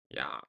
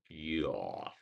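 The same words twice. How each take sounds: First: It is short with no added schwa glide. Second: It is drawn out with an added schwa glide. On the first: The speaker calls it right. "Why can't you just say yeah?" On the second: The speaker calls it wrong. "Don't Americans like say yeah funny way? ... There's a schwa sound at it"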